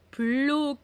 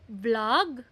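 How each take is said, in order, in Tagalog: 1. Nagtatapos ang salita sa dagdag na tunog patinig. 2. Nagtatapos ang salita sa tunog katinig.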